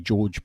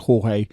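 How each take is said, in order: First: The name sounds like the English name George. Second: The name sounds like the Spanish name Jorge. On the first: This is the speaker's habitual way. The speaker calls it wrong. "I say George" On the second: This is the proper way. The speaker calls it right. "the proper way to say it is Jorge"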